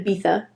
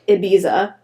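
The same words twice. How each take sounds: First: The middle consonant is a lisp-like th sound. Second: The middle consonant is a plain s sound. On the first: The speaker calls it right. "but it's actually Ibiza" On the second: The speaker calls it wrong. "the American accent is"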